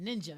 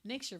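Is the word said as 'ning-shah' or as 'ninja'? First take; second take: ninja; ning-shah. First: The word is said as ninja. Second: The word is said as ning-shah.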